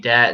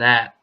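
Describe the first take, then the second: First: The word begins with a d sound. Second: The word begins with a th sound. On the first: It is how Cajun speakers say it. "they say duh, they, dat instead of the, they, and that" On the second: It is the standard way to say it. "instead of the, they, and that"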